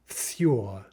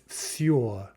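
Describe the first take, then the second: No difference in how they are said.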